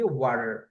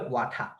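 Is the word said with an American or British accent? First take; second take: American; British. First: It is said with an American accent. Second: It is said with a British accent.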